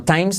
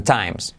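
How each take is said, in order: First: "times" as the mistaken version, higher with rising tune; wrong version of times. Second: "times" as the correction, with falling tune; corrected times. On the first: Teacher warning learners, "times" higher as the wrong version. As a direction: offer "times" higher, as the one to avoid. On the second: Teacher correcting learners, "times" falling as the right version. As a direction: settle "times" firmly downward as the model. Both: Shown as a demonstration. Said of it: "no times, sino times".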